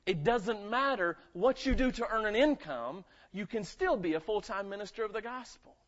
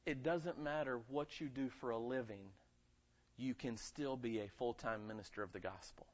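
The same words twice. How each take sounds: First: Preached loud. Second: Quiet and low, laying the point down gently; softly spoken. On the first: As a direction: build it up and drive it home. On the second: Pastor quietly telling the congregation, soft and low. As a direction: say it softly first. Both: Shown as a demonstration. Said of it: "I don't care if you're a janitor".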